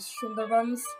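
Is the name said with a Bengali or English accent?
English. The name is said with an English accent. "my English"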